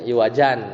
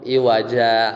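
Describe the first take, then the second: First: The word ends with a final n sound. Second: The word ends on a long a vowel. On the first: This is the original form with tanwin. "Iwajan aslinya" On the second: This is the form used when stopping. "kalau kita waqaf iwaja"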